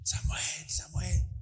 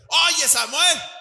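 First: It is called gently and affectionately. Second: It is called out harshly and abruptly.

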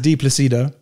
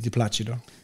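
First: The name is said with an English pronunciation. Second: The name is said with an Italian pronunciation. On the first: "in English is" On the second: "in Italian pronunciation would be"

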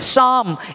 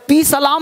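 First: The word starts directly with an s sound. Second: The word starts with a clear p sound. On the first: The speaker calls it right. "ये पी नहीं बोलना है" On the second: The speaker calls it wrong. "या पी सलाम नहीं बोलना है"

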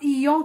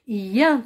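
First: The nasal vowel is rounded, like 'yon'. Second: The nasal vowel is open, like 'yan'. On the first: The speaker calls it wrong. "لا تقرأ يون كما سمعت في أحد الفيديوهات، لا، خطأ" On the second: The speaker calls it right. "يان تقرأ"

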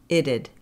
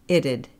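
The two takes are said the same way.

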